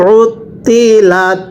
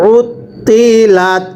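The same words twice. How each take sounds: The two takes are said the same way.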